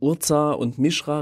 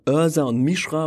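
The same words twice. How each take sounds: First: The names are pronounced the German way. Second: The names are pronounced the English way. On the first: "und nicht von" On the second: "Ich werde es einfach einheitlich versuchen, Englisch zu machen"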